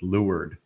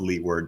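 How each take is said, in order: First: The word is pronounced differently from its spelling. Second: The word is pronounced just as it is spelled. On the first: "but it's leeward" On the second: "it's spelled leeward"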